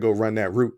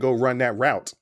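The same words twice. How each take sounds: First: Route rhymes with boot. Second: Route rhymes with out. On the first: Football coaches do not say it this way. "they don't say" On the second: This is how football coaches say it. "That's probably the reason why they said it out route, because it rhymes"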